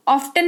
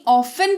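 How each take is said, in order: First: ऑफ्टन with the T sounded; wrong pronunciation. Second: ऑफन with a silent T; correct pronunciation. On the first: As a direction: say ऑफ्टन as of-ten. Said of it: "ऑफ्टन नहीं". (गलत उच्चारण, ऑफ्टन में ट बोलकर) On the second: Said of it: "ऑफन पढ़ेंगे". (सही उच्चारण, ऑफन में ट मौन) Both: Shown as a demonstration.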